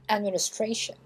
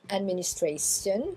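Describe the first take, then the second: First: The ending is said with a sh sound. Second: The ending is said without a sh sound. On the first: The speaker calls it right. "le T, ici, va se prononcer cha" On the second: The speaker calls it wrong. "C'est pas administration"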